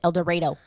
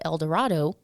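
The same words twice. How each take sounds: First: The name is said the local Kansas way. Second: The name is said the usual standard way. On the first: "but they pronounce it El Dorado" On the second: "the towns is called El Dorado"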